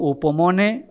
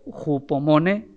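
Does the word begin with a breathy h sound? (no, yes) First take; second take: no; yes. First: The word starts directly with a vowel. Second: The word starts with a breathy h sound. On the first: "algunos la pronuncian como upomone" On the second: "que sería más, más correcto"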